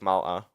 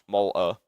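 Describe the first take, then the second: First: The first vowel sounds like a plain a. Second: The first vowel sounds like the o in Walter. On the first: The speaker calls it right. "not Malta" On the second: The speaker calls it wrong. "for me, that's Malta"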